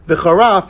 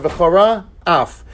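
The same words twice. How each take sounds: First: The two words are slurred together without separation. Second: The two words are clearly separated and enunciated. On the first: The speaker calls it wrong. "where you don't enunciate the words" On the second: The speaker calls it right. "instead of"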